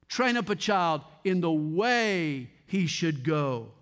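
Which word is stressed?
way. The word way is stressed.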